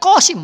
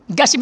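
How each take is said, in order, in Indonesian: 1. Nama ini diawali dengan bunyi seperti K di bagian belakang. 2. Nama ini diawali dengan bunyi G. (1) "sebenarnya kosim, bukan Gasim" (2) "Gasim itu sebenarnya"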